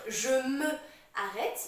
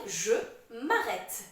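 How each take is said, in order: First: The vowel of 'me' is fully pronounced. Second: The vowel of 'me' is dropped and linked. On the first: The speaker calls it wrong. "au lieu de dire je me arrête" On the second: The speaker calls it right. "il faut dire je m'arrête"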